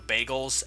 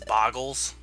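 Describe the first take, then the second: First: The first vowel sounds like 'ay'. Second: The first vowel sounds like 'ah'. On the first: The speaker calls it right. "pronounce um, you know bagels" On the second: The speaker calls it wrong. "as boggles"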